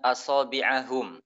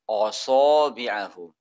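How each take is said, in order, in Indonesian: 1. Hamzahnya tipis dan ringan. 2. Hamzahnya tebal dan berat.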